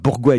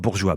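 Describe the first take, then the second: First: The name sounds like 'bourgois', not 'bourgeois'. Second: The name sounds like the word 'bourgeois'. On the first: The speaker calls it right. "Merci Pierre de rectifier" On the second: The speaker calls it wrong. "et non pas Bourgeois"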